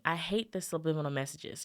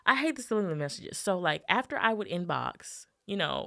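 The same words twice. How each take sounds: First: Said in the usual way. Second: Fast, heated rant. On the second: Shown as a demonstration. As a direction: fire it off like a quick rant. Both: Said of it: "let me rant real quick".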